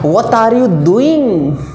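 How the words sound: It is said in an imitated foreign accent. "उनका बोलने का लहजा अलग है जनाब"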